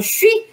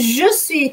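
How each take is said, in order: First: The two words are run together quickly. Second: The two words are said fully and separately. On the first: This is the relaxed spoken form. "a fala tende a juntar mais porque você quer fazer rápido" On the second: This is the full form preferred in writing. "Ao invés de"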